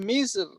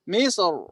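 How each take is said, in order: First: The final r is light and thin. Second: The final r is heavy and thick.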